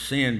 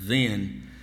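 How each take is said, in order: First: The word begins with a hissing S sound. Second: The word begins with a buzzing Z sound. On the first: The speaker calls it wrong. "sometimes that's pronounced sin" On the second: The speaker calls it right. "It's like a Z sound"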